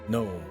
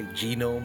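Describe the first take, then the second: First: The g at the start is silent. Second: The g at the start is pronounced. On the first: "I understand that is how you say it" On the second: "I like to say genome because it amuses me"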